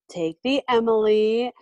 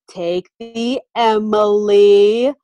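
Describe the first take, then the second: First: It is said in a plain, neutral tone. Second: It is said in a patronizing, mocking tone.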